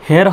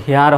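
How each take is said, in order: First: First হেয়ার with a short "e", like "her"; short vowel. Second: Second হেয়ার with an "ee" glide, like "hee-ar"; long vowel. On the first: Teacher offers learners two choices, short-vowel হেয়ার. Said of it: "তখন উচ্চারণটা short sound হয়ে গেল". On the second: Teacher offers learners two choices, long-vowel হেয়ার. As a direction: lengthen হেয়ার through an "ee" sound. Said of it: "ইর মতো উচ্চারণটা আসতেছে". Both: Shown as a demonstration.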